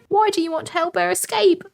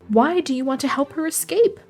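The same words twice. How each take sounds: First: It is read in a put-on British accent. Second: It is read in the speaker's ordinary accent.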